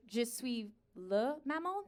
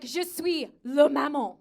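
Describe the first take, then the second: First: Slow, soft, questioning lift at the end; tentative French, word by word; hesitant repeat. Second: Slow, full-voiced statement in French; careful French explanation. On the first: Acted. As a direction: repeat it unsurely, dropping the volume. Unsure repeat after being misunderstood. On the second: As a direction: state it firmly, word by word. First attempt to explain in French.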